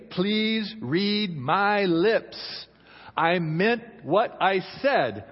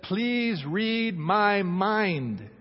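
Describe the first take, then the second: First: Very slow, every word spaced out; spaced-out "read my lips" with a rise on "my"; deliberate husband's demand. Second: Very slow, "my" leaned on then falling; drawn-out "Please read my mind" as a wife; pleading wife's demand. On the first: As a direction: spell out "Please read my lips" as a blunt man. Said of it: "Men say". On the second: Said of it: "And a woman says". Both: Acted.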